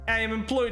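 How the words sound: It is said in a put-on Russian accent.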